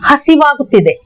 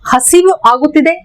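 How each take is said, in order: First: The two words are run together as one. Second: The two words are said separately.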